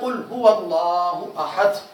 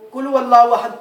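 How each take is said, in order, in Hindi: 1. पहला व्यंजन मोटा और भारी है। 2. पहला व्यंजन पतला और हल्का है। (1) "ए प्यारे महबूब आप कह दें कि वो अल्लाह एक है" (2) "मोटाई के बजाय बरीक आवाज में"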